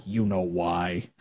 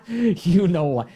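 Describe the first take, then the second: First: Knowing chuckle. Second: Laughing repeat. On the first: Knowing slow aside, laugh. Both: Real, not acted.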